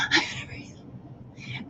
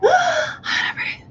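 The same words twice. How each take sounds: First: Slow, soft, almost unvoiced; breathy belly breath. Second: Gasping breath. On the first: Parent showing children a calm belly breath. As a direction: let the words ride a slow belly breath. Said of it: "if you breathe to your belly". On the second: Parent showing children a panicked gasping breath. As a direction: gasp in sharply before the words. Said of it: "we normally tend to gasp for air". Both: Shown as a demonstration.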